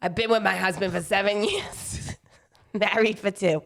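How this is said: It is read in an exaggerated New Jersey accent.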